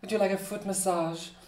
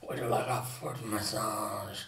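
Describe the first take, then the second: First: It is said in a high, soft voice. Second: It is said in a low, rough voice.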